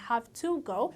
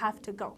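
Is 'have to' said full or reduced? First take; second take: full; reduced. First: 'Have to' is said fully, with each word clear. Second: 'Have to' is reduced and run together. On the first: The speaker calls it wrong. "don't say" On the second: The speaker calls it right.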